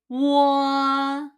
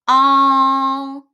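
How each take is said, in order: First: The vowel starts with a w glide. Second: The vowel starts directly, with no w glide. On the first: The reading taught before the reform. "every teacher teach this one as 我" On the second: The reading set by the reform. "It sounds like all in law"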